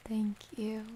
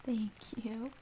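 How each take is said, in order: Both takes have the same delivery.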